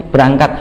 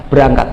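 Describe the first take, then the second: No difference in how they are said.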